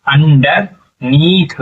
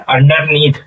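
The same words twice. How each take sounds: First: underneath stretched very slowly, each syllable drawn out; slow sounding out. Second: Said in the usual way. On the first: Shown as a demonstration. Teacher blending the word for pupils, very slow underneath. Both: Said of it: "क्या हो जाएगा?".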